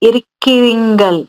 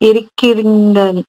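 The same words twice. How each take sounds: No difference in how they are said.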